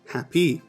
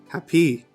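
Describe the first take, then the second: First: The stress is on the second syllable. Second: The stress is on the second syllable.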